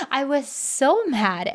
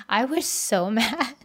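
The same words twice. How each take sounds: First: Slow, stressed on so; emphatic. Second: Laughing at her own anger, slowed. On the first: Insisting to listeners how angry she was. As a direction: lean hard on the word so, drawn out. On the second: Recalling the fight with Jeff, laughing at herself. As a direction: chuckle through the words. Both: Real, not acted.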